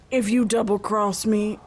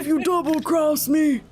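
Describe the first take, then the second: First: It is spoken in a plain, unaccented voice. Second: It is spoken in a Southern American accent.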